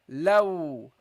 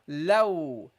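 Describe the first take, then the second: First: The l sound is clear and light. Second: The l sound is clear and light.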